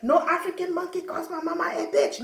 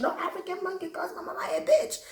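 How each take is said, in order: First: Outraged mock tough girl; furious girl. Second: Put-on furious girl, faster. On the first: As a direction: play the big girl ready to fight. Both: Angry big girl threatening.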